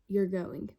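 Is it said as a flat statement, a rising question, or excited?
statement. It ends with a plain falling statement tune. It states a fact. "whether it was a period"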